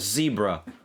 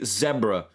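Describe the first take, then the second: First: It is said with an American pronunciation. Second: It is said with a British pronunciation. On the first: "It's a zebra" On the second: "I'm not gonna fucking call the and the striped horse a zebra"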